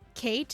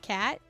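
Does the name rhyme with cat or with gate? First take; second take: gate; cat. First: The vowel is long, rhyming with gate. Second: The vowel is short, rhyming with cat. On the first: The speaker calls it wrong. "I'm sorry for uh, saying Kate instead of Kat" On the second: The speaker calls it right. "her name is is Kat, not Kate"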